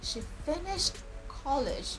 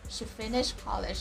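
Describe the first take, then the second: First: The t sound at the end of finished is pronounced. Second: The t sound at the end of finished is dropped. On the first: "Notice that I didn't say" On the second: "I just said ... and that's fine"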